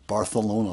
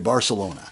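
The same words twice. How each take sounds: First: The c is said with a lisped th sound. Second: The c is said as a plain s sound.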